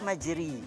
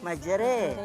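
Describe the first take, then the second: First: The vowel after r is a close i. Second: The vowel after r is a mid e. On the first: "Kalau baris di bawah majri" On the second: "Kalau baris imalah majre"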